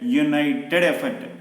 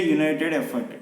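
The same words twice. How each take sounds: First: "united" stretched slowly as you-nigh-ted before "effort"; pronunciation demo. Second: Said in the usual way. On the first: Shown as a demonstration. Teacher showing why it takes "a", "united" drawn out syllable by syllable. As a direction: sound out "united" with a clear "you" at the start. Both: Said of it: "united is the pronunciation".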